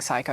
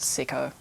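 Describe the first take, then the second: First: The first vowel sounds like 'eye', as in psycho. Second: The first vowel sounds like 'ih', as in sick. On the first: The speaker calls it wrong. "I was saying Psycho, and then I heard someone say Sicko, and I was like, whoops" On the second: The speaker calls it right. "like pronounced Sicko"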